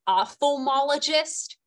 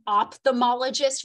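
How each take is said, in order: First: It is said in the standard full way. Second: It is said in the common casual way. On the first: "rather than an ophthalmologist" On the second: "we call it an ophthalmologist"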